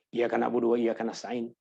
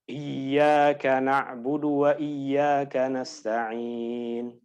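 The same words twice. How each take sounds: First: It is recited quickly and hurriedly. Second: It is recited slowly and carefully.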